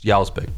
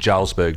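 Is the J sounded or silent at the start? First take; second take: silent; sounded. First: The J at the start is silent. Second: The J at the start is sounded. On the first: The speaker calls it right. "the J is silent" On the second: The speaker calls it wrong. "That's not how it's pronounced"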